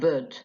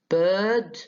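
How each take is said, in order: First: The vowel is a short schwa. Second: The vowel is a long central vowel. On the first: The speaker calls it wrong. "not bird يعني ما هيش schwa" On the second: The speaker calls it right. "the central long vowel"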